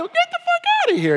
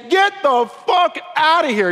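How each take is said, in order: First: It sounds playful and joking. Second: It sounds serious and angry.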